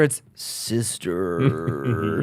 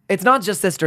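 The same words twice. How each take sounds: First: "sister" drawn out very slowly and low; a slow, low, knowing "sister"; stress on sister. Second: Said in the usual way. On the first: Shown as a demonstration. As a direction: stretch "sister" long and deep.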